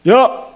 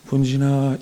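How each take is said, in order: First: It is shouted very loudly. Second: It is said softly, at normal volume.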